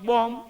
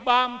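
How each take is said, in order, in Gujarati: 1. સ્વર ગોળ 'o' અવાજ છે. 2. સ્વર ખુલ્લો 'aa' અવાજ છે. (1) "તો કે" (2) "આપણે કેવી"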